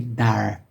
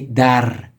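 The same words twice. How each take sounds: First: The r is a smooth English-style r. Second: The r is rolled with the tongue tip. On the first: The speaker calls it wrong. "with Americans, if they were pronouncing this, they would say dar" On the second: The speaker calls it right. "I say dar, r. the tip of my tongue fluctuates between my teeth"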